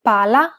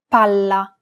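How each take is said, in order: First: "Pala" with a short single L, PA-la; single consonant. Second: "palla" with a held double L, PAL-la; double consonant. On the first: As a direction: keep the L in "Pala" quick. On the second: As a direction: hold the L in "palla" an extra beat. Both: Shown as a demonstration. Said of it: "double consonants must be pronounced clearly and held".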